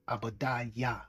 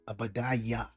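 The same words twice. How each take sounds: First: The name begins with an A sound. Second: The same.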